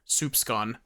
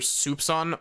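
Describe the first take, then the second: First: The middle consonants are an s-c cluster. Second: The middle consonant is a single s sound. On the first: "it's pronounced as an S C" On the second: "that weird C is pronounced like an S"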